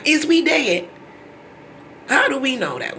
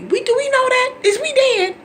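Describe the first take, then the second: First: "Is we dead?" higher and emphatic on "we"; emphatic "Is we dead?" stressing "we"; pointed question. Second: Very high, loud disbelieving squeal; high, loud, disbelieving "Is we dead?"; incredulous mock question. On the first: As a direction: lean on "we" in disbelief. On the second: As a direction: shriek it in disbelief. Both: Real, not acted.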